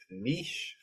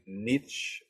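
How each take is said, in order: First: "niche" with a soft sh, like "neesh"; pronounced "neesh". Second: "niche" with a hard ch, like "nitch"; pronounced "nitch". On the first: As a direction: say "niche" the French way, long ee into sh. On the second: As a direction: end "niche" on a tch sound, as in "itch". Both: Shown as a demonstration. Gives two pronunciations of niche.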